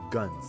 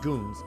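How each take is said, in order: First: The vowel is short, as in 'gun'. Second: The vowel is long, as in 'goon'. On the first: The speaker calls it right. "guns as in pistol" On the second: The speaker calls it wrong. "I guess I was pronoun pronouncing it wrong"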